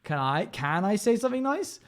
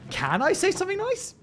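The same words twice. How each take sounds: First: "nice" lifted with a rising tune at the end; stress on nice. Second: Much higher, "say" rising and stressed, "nice" left light. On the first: Real, not acted. Chatter asks her, stress landing on "nice". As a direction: lean on the word "nice" and let it rise. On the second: Shown as a demonstration. Streamer re-asks chat, moving the stress onto "say". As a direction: put the weight on "say", squeaky high. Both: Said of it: "why did you emphasize that word?".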